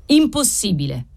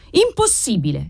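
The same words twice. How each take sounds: First: Understated indignant boom; thundered refusal. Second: Understated strident indignation; screeched refusal. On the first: Outraged doctor refusing the offer, mildly thundering. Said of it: "tuonò Trifari". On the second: Livid professor refusing the offer, mildly screeching. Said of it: "stridette Colaneri livido". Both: A narrator's reading.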